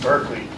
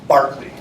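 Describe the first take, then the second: First: The first syllable sounds like 'bur'. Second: The first syllable sounds like 'bar'. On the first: The speaker calls it wrong. "they're actually pronouncing the name wrong" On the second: The speaker calls it right. "Barkley is how it's pronounced"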